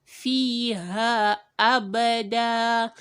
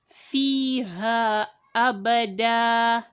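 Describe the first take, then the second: No difference in how they are said.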